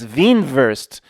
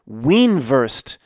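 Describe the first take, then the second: First: The word is said with German pronunciation. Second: The word is said with English pronunciation.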